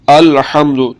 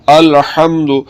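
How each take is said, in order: No difference in how they are said.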